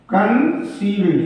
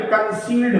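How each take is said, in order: First: concealed repeated slowly and clearly. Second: Said in the usual way. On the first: Shown as a demonstration. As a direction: say concealed again slowly for dictation. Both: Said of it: "फिर concealed हो गया".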